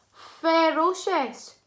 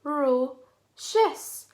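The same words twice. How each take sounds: First: "Ferocious" joined up, high, loud and drawn out; blended whole word. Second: "Ferocious" slowly in three parts with pauses; syllable by syllable. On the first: Teacher models before "your turn", "Ferocious" blended, high and loud. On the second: Teacher shows children the syllables, "Ferocious" slowly split in three. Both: Shown as a demonstration.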